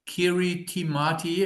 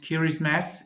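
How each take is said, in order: First: The middle ti is said with a t sound. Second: The middle ti is said with an s sound. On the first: This is the common local way of saying it. The speaker calls it wrong. "as everybody pronounces it here" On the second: This is the proper way of saying it. The speaker calls it right. "but it's pronounced Kirismas"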